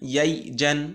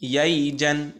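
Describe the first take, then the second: No difference in how they are said.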